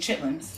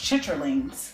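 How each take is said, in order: First: The word is shortened to two syllables. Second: The word is said in full, three syllables. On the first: This is how the community casually says it. "but we say chitlins" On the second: This is the formal, proper pronunciation. "it's properly pronounced chitterlings"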